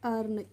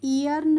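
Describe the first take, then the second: First: The word begins with an 'er' sound. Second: The word begins with an 'ee' sound. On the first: The speaker calls it right. "इसको हम पढ़ते हैं अर्न" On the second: The speaker calls it wrong. "ईयर्न नहीं पढ़ते हैं"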